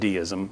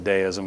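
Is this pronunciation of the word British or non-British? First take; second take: non-British; British. First: The word is said in a non-British pronunciation. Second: The word is said in a British pronunciation. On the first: This is how another person would say it. "he would have said deism" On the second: This is the pronunciation the speaker prefers. "I like the British pronunciation"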